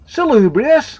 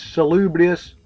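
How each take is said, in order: First: High, loud questioning echo; incredulous blurt. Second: Said in the usual way. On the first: A narrator's reading. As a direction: blurt the word back in disbelief. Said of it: "blurted Sean".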